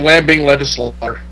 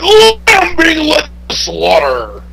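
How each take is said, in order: First: It is said weakly, with little force. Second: It is said forcefully, with big energy.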